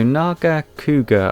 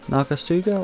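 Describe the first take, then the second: First: The C is said as a hard K sound. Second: The C is said as a soft S sound. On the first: "I would pronounce this" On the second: "or maybe a soft C"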